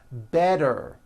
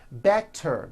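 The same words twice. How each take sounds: First: The middle consonant is a soft voiced D. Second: The middle consonant is a crisp T sound.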